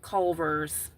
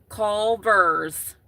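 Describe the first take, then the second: First: Culver's drawn out slowly, Cul-ver's; Culver's said slow and clear; slow careful Culver's. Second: Culver's said loud and careful, Cul-vers; correct pronunciation. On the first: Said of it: "but Culver's". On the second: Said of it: "Not verse". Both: Shown as a demonstration.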